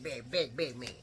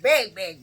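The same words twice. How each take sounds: First: Big dropped much softer and lower; fading big. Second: Big said loud and heavy; emphatic big. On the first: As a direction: let big fall away. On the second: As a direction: punch each big. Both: Shown as a demonstration. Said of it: "he was big".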